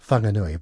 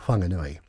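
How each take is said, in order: First: The word begins with an F sound. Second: The word begins with a soft WH sound. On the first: "if you see a WH sound, it's pronounced as F" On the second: "my preference is to say"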